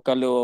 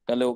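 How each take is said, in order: No difference in how they are said.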